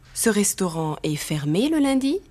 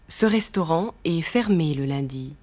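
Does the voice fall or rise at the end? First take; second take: rise; fall. First: The voice rises at the end. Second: The voice falls at the end.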